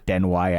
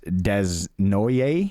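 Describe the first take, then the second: First: The name ends with a 'way' sound. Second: The name ends with a 'noyer' sound. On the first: The speaker calls it right. "they gave you the phonetics for that" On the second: The speaker calls it wrong. "I went Desnoyer"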